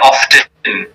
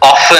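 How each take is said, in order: First: The word is said with a clear T sound. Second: The word is said without a T sound. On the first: Many people around the world say it this way. "there are so many people around the world who use the T often" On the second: This is how Americans say it. "In America, they don't use the T often"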